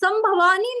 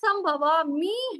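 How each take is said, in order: First: The last syllable begins with an n sound. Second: The last syllable begins with an m sound. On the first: The speaker calls it wrong. "संभवानी नहीं है" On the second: The speaker calls it right. "संभवामी है"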